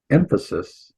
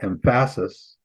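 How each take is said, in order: First: "Emphasis" stressed on its first syllable, EM-phasis; right-syllable stress. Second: "emphasis" stressed on its second syllable, em-PHA-sis; wrong-syllable stress. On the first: Teacher showing the right syllable to accent, correct stress. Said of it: "put the emphasis on the right syllable". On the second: Teacher showing what a misplaced accent does, deliberately misplaced stress. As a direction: slowly lean on the middle of "emphasis". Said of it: "on the wrong syllable". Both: Shown as a demonstration.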